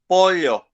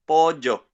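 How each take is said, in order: First: It is said in an older Paraguayan accent. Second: It is said in a younger Paraguayan accent. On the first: "the one who is Paraguayan and he, who is sixty years old, he pronounces this word pollo" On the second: "another Paraguayan guy, but this guy is fifteen and he doesn't say pollo, he says pollo"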